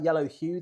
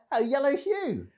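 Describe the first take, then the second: First: Said in the usual way. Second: YELLOW HUE pitched high like a greeting; dad-joke punchline. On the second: Shown as a demonstration. Host repeats his accidental pun to viewers, hammed-up dad-joke delivery. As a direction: land the pun in a high, hammy call. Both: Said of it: "Dad jokes".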